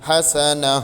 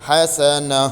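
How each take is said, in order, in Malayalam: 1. വാക്ക് നിശ്ശബ്ദമായ 'h' ശബ്ദത്തിലാണ് അവസാനിക്കുന്നത്. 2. വാക്ക് നിശ്ശബ്ദമായ 'h' ശബ്ദത്തിലാണ് അവസാനിക്കുന്നത്.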